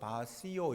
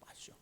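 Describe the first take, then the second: First: It is said as three syllables, ba-si-o. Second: It is said as two syllables, ba-sho. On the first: The speaker calls it wrong. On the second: The speaker calls it right.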